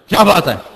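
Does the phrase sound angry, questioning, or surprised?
angry. It is said in a confrontational, quarrelsome tone. The speaker is in the mood for a fight. "मौलवी साहब कोई लड़ाई दे mood है"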